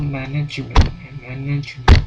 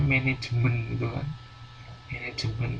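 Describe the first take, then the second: First: MANAJEMEN as "MAN-ij-ment", loud stressed first syllable; correct English pronunciation. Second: MANAJEMEN said "me-ne-je-men", even Indonesian syllables; non-English speaker's reading. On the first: Shown as a demonstration. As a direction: model English MANAJEMEN louder, punching MAN. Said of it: "Kalau yang sudah benar tuh". (MANAJEMEN ala Inggris, keras, tekanan di awal)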